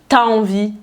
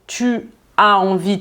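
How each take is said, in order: First: The vowel of 'tu' is dropped. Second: The vowel of 'tu' is fully pronounced. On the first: "tu dis" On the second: "à la place de dire"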